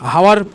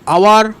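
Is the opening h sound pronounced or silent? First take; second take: pronounced; silent. First: The word begins with an audible h sound. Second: The word begins with a vowel, no h sound. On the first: The speaker calls it wrong. "আওয়ারকে হাওয়ার বলে দিচ্ছে অনেক, এক একজন মানে ভুলভ্রান্তি উচ্চারণ করছে" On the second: The speaker calls it right. "এটা কিন্তু আওয়ার"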